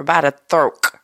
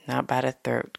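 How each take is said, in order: First: "throat" said loose and loud, ending in a K sound, "throak"; casual pronunciation. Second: "throat" said properly, ending in a crisp T; proper pronunciation. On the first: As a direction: say "throat" loud and slangy, dropping the T. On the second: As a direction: say "throat" neatly with the final T. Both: Shown as a demonstration. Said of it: "'cause that's too proper".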